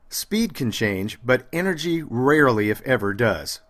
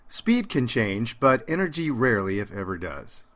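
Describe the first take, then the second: First: The energy stays strong through the end. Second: The energy drops off at the end.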